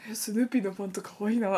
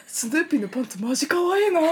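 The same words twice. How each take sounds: First: Laughing retelling. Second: Gushing. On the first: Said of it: "とか". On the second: Boys gush over Snoopy underwear. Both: Retold or imitated.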